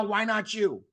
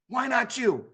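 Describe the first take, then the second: First: "Why" hit hardest, pitch falling after it; "Why" punched; stress on WHY. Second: "not" hit hardest, falling off after it; "not" punched; stress on NOT. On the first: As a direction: lean on "Why", then drop. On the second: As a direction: lean on "not" the second time. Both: Acted. Repeated rhetorical question to audience.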